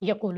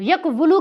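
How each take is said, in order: First: The middle has one long u, no w. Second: The middle has a w followed by u. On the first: The speaker calls it right. "आप सिंपली इसको पढ़ें यकूलु।" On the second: The speaker calls it wrong. "यकवुलु की बजाय, मुश्किल है ना"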